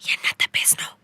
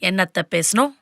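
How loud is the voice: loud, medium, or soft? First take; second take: soft; medium. First: It is spoken softly. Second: It is spoken at a moderate volume. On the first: The speaker calls it right. "இப்படியே பேசு, இது நல்லது" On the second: The speaker calls it wrong. "இன்னும் குறை"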